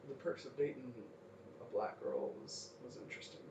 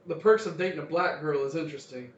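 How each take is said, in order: First: It is said at a quieter volume. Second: It is said at a louder volume.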